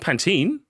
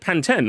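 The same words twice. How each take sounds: First: Pantene is said with an American pronunciation. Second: Pantene is said with a non-American pronunciation. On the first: The speaker calls it wrong. "Not Pantene" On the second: The speaker calls it right. "That's how you say it"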